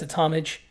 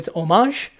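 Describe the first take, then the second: First: It is said the plain American way. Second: It is said the fancy, foreign-sounding way.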